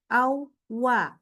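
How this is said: The sound stops briefly in the middle. The speaker calls it wrong. "suaranya nggak berhenti, bukan awwa"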